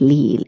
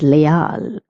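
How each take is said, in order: First: The vowels are pronounced the English way. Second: The vowels are pronounced the Spanish way. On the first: The speaker calls it wrong. "it is not leal" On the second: The speaker calls it right. "it is leal"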